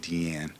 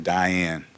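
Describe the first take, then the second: First: The first syllable sounds like 'dee'. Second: The first syllable sounds like 'die'. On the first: The sayer knows the artist's own pronunciation. The speaker calls it right. "If you're in the know, you say Deanne" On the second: The sayer does not know the artist's own pronunciation. The speaker calls it wrong. "If you don't know, you say Diane"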